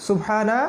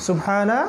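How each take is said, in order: Both takes have the same delivery.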